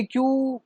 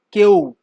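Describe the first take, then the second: First: "क्यू" said clearly as "kyoo"; correct Q. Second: "क्यू" said as "keo", a broken Haryana-style Q; mock "क्यू" as "keo"; wrong Q. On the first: Shown as a demonstration. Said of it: "क्यू एक proper pronunciation है". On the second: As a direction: mispronounce "क्यू" like a student would. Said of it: "ये उत्तर प्रदेश में तो मैंने नहीं सुना".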